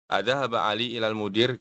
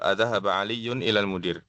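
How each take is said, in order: First: The name is said without any added ending. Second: The name is said with a full -un ending. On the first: This is how people speak in conversation. "nggak perlu dibaca lengkap" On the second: The case ending is shown for study. "Dibaca dibaca domah tanwinnya ya"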